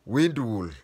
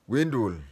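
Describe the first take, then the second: No difference in how they are said.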